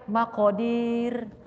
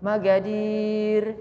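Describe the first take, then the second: First: The middle consonant is a deep throat Q sound. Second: The middle consonant is a plain G sound. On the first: This is the original form with qaf. "Itu sebetulnya qaf Makodir" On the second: "qaf jadi G"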